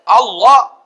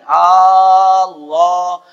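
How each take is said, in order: First: The first vowel is said short. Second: The first vowel is drawn out long. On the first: It names God. The speaker calls it right. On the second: It turns into a question asking whether God is God. The speaker calls it wrong.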